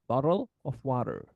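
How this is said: It is said in an American accent. "so that's in American accent"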